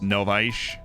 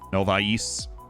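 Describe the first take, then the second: First: The name does not end in a plain s. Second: The name ends in a plain s sound. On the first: The speaker calls it right. "So it's Novaish" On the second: The speaker calls it wrong. "you just put an S at the end"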